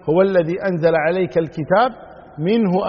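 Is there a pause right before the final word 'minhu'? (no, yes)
yes. There is a pause just before minhu. The verses are part of the Book. "أو أن يعود الضمير إلى الكتاب"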